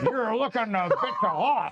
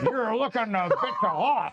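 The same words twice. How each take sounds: First: It is said in a put-on pirate voice. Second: It is said in a put-on pirate voice.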